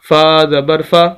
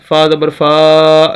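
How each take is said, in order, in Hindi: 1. छोटे स्वर को छोटा और सहज रखा जाता है। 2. छोटे स्वर को लंबा खींचा जाता है। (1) "बिल्कुल लंबा करके नहीं पढ़ेंगे" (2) "लंबा नहीं करना ... ऐसे नहीं पढ़ना"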